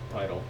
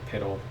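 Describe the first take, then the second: First: The first vowel is long, like 'pie'. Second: The first vowel is short, like 'pit'. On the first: This is how the speaker reads the word. "I think Pytal" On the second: This is how the end of the word is normally said. "I don't think piddle"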